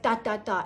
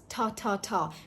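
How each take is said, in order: First: The T sound is hard, without a puff of air. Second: The T sound is soft, with a puff of air. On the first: The speaker calls it wrong. "it's very hard" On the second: The speaker calls it right. "very soft"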